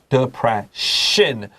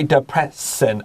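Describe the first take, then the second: First: The double s is said as sh. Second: The double s is said as a plain s. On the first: The speaker calls it right. "I say depression ... please write S H" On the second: The speaker calls it wrong. "I don't say depression"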